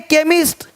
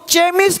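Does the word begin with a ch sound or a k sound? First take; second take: k; ch. First: The word begins with a k sound. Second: The word begins with a ch sound. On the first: The speaker calls it right. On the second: The speaker calls it wrong.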